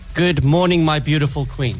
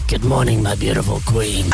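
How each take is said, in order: First: It is said in a straight, formal tone. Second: It is said in a creepy, suggestive tone. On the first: The speaker calls it right. "you said it with a very straight and very like formal tone" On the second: The speaker calls it wrong. "I didn't want the beautiful part to sound creepy. Like if I went"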